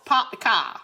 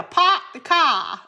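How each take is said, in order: First: "park the car." as "pahk the cah" with no R; R-less "park". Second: "park the car." said "pahk the cah", loud and slow. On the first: Mimicking the viewer's R-less Southern phrase. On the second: Showing viewers the R-less way to say it. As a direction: drop every R in "park the car.". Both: Shown as a demonstration. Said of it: "there's no R in it".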